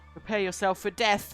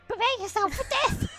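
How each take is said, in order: First: It is said in a normal voice. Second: It is said in a put-on ghost voice.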